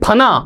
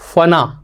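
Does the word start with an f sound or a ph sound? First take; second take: ph; f. First: It starts with an aspirated p sound. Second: It starts with a breathy f sound. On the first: "हम बोलेंगे फना" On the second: "फा में नुक्ता लगाने के बाद हम क्या बोलेंगे? फना। थोड़ी हवा थोड़ी ज्यादा निकलने लगती है"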